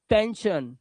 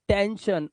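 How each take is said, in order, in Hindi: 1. आखिरी हिस्सा 'shun' की आवाज़ से बोला जाता है। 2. आखिरी हिस्सा 'shun' की आवाज़ से बोला जाता है।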